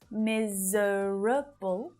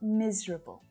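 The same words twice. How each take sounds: First: The word is said with four syllables. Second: The word is said with three syllables. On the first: "it looks like there should be four syllables" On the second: "we just shorten it to miserable"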